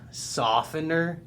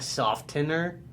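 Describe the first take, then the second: First: The t sound is silent. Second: The t sound is pronounced. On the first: The speaker calls it right. "everybody, as far as I know, says softener" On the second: The speaker calls it wrong. "not softener"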